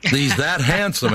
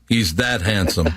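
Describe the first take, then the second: First: Handsome drawn out slowly and higher; stress on handsome. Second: Said in the usual way. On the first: Shown as a demonstration. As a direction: lean hard on handsome, slowly.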